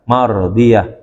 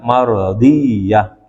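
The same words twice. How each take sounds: First: The y sound is single and light. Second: The y sound is doubled and held longer. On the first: The speaker calls it right. "dibaca dengan ringan ya, artinya tidak ditasdidkan" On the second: The speaker calls it wrong. "jangan dibaca mardiyah gitu, bukan"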